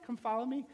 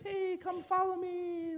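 First: Said in the usual way. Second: High, drawn-out sing-song call; airy caricature of an inviting call; breezy mock calling. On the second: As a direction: call out high and slow, lightly. Voices Jesus calling the fishermen.

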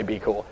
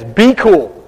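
First: "Be cool." dropped lower and much softer, as a throwaway; muttered aside. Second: Casual "be cool". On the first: Preacher admits the quote was made up, muttered aside. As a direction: say "Be cool." under your breath, taking it back. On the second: Prophet calms the frantic king, breezy "Be cool.". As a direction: say "Be cool." like a laid-back buddy. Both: Retold or imitated. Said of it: "he doesn't really say".

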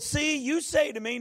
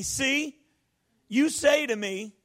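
First: Said in the usual way. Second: Slow, cocky "See, you say to me"; a bit cocky. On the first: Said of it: "notice how he starts off". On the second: Shown as a demonstration. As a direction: lean on it like Moses talking back. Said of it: "a little bit cocky".

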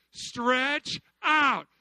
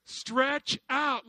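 First: Shouted Stretch out; loud call. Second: Said in the usual way. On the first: Shown as a demonstration. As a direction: Stretch out called louder. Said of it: "You had to what?". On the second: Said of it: "You have to do what?".

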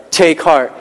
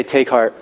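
First: "Take heart" with weight on "Take", falling hard on "heart"; emphatic take heart. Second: Said in the usual way. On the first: Shown as a demonstration. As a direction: punch "Take heart" as a rallying cry. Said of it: "Exclamation point. That's emphatic". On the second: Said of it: "Exclamation point".

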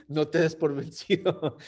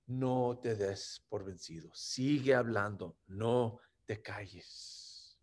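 First: Said in the usual way. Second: Soft, low, gentle words of comfort; hushed reassurance, slowing at the end; hushed divine words. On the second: Acted. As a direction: say it softly as Jesus encouraging. Jesus quoted again, hushed.

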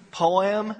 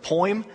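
First: "Poem?" said in two syllables, po-em; "Poem?" stretched out as po-em, the way others say it. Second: "poem?" said as one gliding syllable, like poym; "poem?" run together as one sound, poym. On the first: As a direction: split "Poem?" carefully into two beats, po-em. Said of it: "I don't know how they say it". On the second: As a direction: squeeze "poem?" into a single syllable, poym, with a light rise. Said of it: "they always rag on me when I say this word". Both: Shown as a demonstration.

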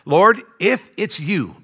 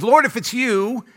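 First: Slow, deliberate scripture reading; measured Bible reading. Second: Higher, drawn-out acted challenge; acting out a daring disciple; testing Peter. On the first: A narrator's reading. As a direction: read the verse out slowly and plainly. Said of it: "let me read it". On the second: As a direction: call it out slowly, testing the waters. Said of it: "starts to kinda test it".

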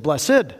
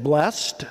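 First: Blessed said in two syllables, "bless-ed". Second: Blessed said as one syllable, "blest". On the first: Preacher asks the congregation how to say it, two syllables "bless-ed". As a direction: pastor offering "blessed" the other way, "bless-ed". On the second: Preacher asks the congregation how to say it, one syllable "blest". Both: Shown as a demonstration. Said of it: "We don't even know how to pronounce it".

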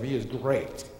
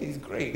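First: "great" drawn out with weight; stress on GREAT. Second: Said in the usual way. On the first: Shown as a demonstration. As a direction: lean heavily on the word "great". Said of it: "He's great in the sense of". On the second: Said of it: "Not in the sense of".

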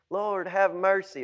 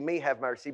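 First: Said in the usual way. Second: "Me" lifted with a little rise, rest of "Me, have mercy" light; stress on Me. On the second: Shown as a demonstration. Preacher joking how Jesus would say it, leaning on "Me". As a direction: lean on "Me" as the joke. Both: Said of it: "if Jesus said it, it would be".

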